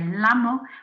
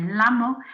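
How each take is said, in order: First: The double L is said like an English L. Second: The same.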